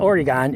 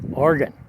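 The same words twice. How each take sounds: First: The name is said in a non-local pronunciation. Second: The name is said the way residents say it. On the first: The speaker calls it wrong. "It's not Oregon" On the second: The speaker calls it right. "the correct pronunciation you get from anyone who lives in this state"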